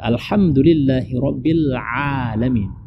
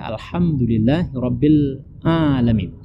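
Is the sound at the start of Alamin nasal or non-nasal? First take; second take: non-nasal; nasal. First: The ain sound is made in the throat, not nasal. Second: The ain sound passes through the nose. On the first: The speaker calls it right. "ain itu diletakkan di kerongkongan bagian tengah" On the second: The speaker calls it wrong. "Jangan dibaca... tidak boleh dia masuk ke dalam hidung"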